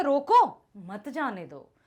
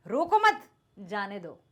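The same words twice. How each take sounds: First: Loud slow रोको, break, then मत जाने दो; pause after रोको. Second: Loud रोको मत together, break, lower जाने दो; pause after मत. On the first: Teacher contrasting the earlier reading for students, break after रोको. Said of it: "पहले क्या कह रहे थे". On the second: Teacher contrasting the new reading for students, break after मत. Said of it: "अब क्या कह रहे हैं". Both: Shown as a demonstration.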